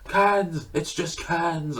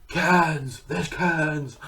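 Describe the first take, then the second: First: Higher, slow, hushed Keanu awe; Keanu impression. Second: A hint of dazed Keanu marvelling at cans; mock-awed Keanu saying cans; Keanu impression. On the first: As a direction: marvel at the cans like stunned Keanu. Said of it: "and then he's like". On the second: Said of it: "he's like, "Cans".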